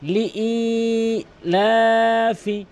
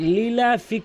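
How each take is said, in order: First: A glottal stop separates li from a lengthened ilafi. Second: The hamza is dropped and sounds run together. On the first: The speaker calls it right. "হামজার উচ্চারণকে এক আলিফ টেনে পড়তে হবে" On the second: The speaker calls it wrong. "হামজার উচ্চারণ বাদ দিয়ে ফেলে"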